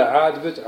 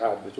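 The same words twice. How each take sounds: First: A casual questioning "عاجبك؟" with a falling end; asking if pleased. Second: "عاجبك" said lower and softer as a shrugging answer; quiet casual reply. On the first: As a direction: toss off "عاجبك؟" as a lazy offer. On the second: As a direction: answer "عاجبك" under the breath, unbothered. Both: Retold or imitated. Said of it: "يقول له".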